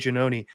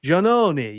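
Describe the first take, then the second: First: The name has an Americanized pronunciation. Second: The name has an Italian pronunciation. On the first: This is how the family has always said it in America. The speaker calls it wrong. "This is how uh how, you know, my grandparents said it" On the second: This is how the name is said in Italy. The speaker calls it right. "that's not how you say it"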